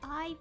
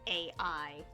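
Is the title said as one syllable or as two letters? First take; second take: one syllable; two letters. First: It is said as the single syllable 'eye'. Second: It is said as two separate letters, A-I. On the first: The speaker calls it right. "it actually is pronounced that way" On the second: The speaker calls it wrong. "not A I"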